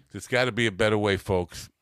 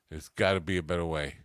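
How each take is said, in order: First: Louder, fast TV-ad pitch; infomercial pitch. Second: Said in the usual way. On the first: Pretend. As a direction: sell it like a late-night infomercial host. Infomercial catchphrase to viewers.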